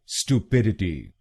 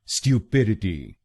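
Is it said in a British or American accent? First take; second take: American; British. First: It starts with an American 'stoo' sound. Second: It starts with a British 'styoo' sound.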